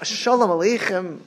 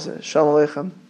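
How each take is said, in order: First: The greeting is said with strong, warm emphasis. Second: The greeting is said quickly and offhandedly. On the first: A heartfelt greeting that truly wishes peace. The speaker calls it right. "you have to be so emphatic. That's like" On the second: A passing greeting without real engagement. The speaker calls it wrong. "walk by"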